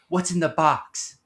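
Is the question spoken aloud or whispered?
aloud. It is spoken in a normal full voice.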